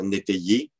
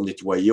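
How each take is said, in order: First: "nétayer" with é in place of wa; old popular pronunciation. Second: Said in the usual way. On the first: Shown as a demonstration. Lecturer showing old usage, "nétayer" for nettoyer. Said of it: "on pouvait dire nétayer". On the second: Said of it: "pour nettoyer".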